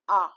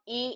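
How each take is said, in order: First: The letter is said like French ah. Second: The letter is said like English ay. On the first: The speaker calls it right. "Again, I repeat, it is A" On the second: The speaker calls it wrong. "never pronounce any noun in French like English. It is not A in French"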